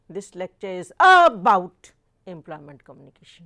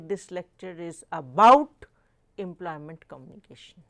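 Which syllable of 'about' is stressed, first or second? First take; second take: first; second. First: The stress in about is on the first syllable. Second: The stress in about is on the second syllable. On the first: The speaker calls it wrong. "We do not say ... that is incorrect" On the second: The speaker calls it right. "we say"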